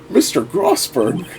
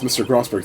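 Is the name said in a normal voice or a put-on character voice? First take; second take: put-on; normal. First: It is said in an imitated older man's voice. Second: It is said in the speaker's normal voice. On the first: The speaker calls it wrong. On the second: The speaker calls it right.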